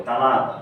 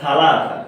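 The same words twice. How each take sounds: First: তালাতা with hard t sounds, ta-la-ta; তালাতা said the way Saudis say it, not সালাসা; Saudi local pronunciation. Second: সালাসা said the grammar-book way, sa-la-sa; classical Arabic pronunciation. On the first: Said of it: "তালাতা বলে". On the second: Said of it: "শুদ্ধ উচ্চারণ করে পড়ি". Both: Shown as a demonstration.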